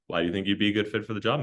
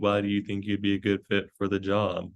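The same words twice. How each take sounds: First: It is said lively and energetic, with varied pitch. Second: It is said flat and monotone, without energy. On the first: The interviewer seems engaged and welcoming. The speaker calls it right. "with that energy as well... Having that kind of tone to it" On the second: The interviewer seems bored and disengaged. The speaker calls it wrong. "Don't be boring. Don't be monotone. Don't be like"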